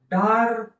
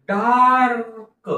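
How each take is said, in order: First: Said in the usual way. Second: dark stretched out slowly, sound by sound; slow blending. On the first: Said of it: "शब्द तसा पटकन वाचायला पाहिजे". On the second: Shown as a demonstration. Teacher blending a word slowly for pupils. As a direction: draw out dark for the class. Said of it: "हळूहळू सावकाश म्हणून दाखवत आहे".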